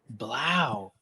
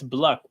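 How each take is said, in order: First: The vowel sounds like the one in cow. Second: The vowel sounds like the one in shuck. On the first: The speaker calls it right. "like cow" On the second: The speaker calls it wrong. "if you pronounce it like Shuck, then it's Bluck"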